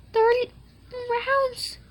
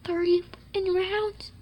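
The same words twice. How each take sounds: First: Much higher, mock squeal; high squeal of the same count; squeaky high. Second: Breathy whisper, a bit slow; whispered aside to himself. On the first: Repeats the count, squeaky second. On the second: Acted. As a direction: breathe the count under your breath. Repeats the count, whispered first.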